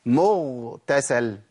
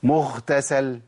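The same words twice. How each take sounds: First: مغتسل drawn out with a voiced, held gh; correct ghayn. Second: مغتسل with the gh weakened to a breathy kh; wrong ghayn. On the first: Teacher showing how to realise the letter, carefully articulated. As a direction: say مغتسل slowly, keeping the ghayn fully voiced. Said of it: "أحقق المخرج". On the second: Teacher showing what not to say, deliberately mispronounced. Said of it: "ما أقولش". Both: Shown as a demonstration.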